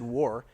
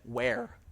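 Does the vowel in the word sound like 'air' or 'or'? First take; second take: or; air. First: The vowel is an 'or' sound. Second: The vowel is an 'air' sound. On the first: This is how the word is said today. "he would not have said war" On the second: This is how the diarist said the word. "he would have said where"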